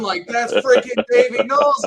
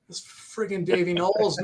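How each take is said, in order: First: High, loud, starstruck outburst; internal fangirl scream. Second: Stunned, held-back fan excitement; awestruck, the excitement still kept in; freaking out. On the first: Fan seeing his guitar idol standing there, screaming inside. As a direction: scream it inside like a little girl. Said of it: "I'm screaming like a little". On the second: Fan spotting his idol at the merch booth, freaking out inside. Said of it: "I'm freaking out, right?". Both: Retold or imitated.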